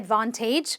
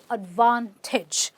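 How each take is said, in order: First: The last syllable has a full 'ay' vowel. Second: The last syllable has a short 'ih' vowel. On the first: The speaker calls it wrong. "which is completely incorrect" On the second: The speaker calls it right. "It is"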